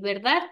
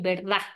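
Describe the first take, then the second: First: The final d sound is clearly pronounced. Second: The final d sound is dropped. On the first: "en vez de decir" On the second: "No se pronuncian las consonantes S y la D. ... ellos dicen"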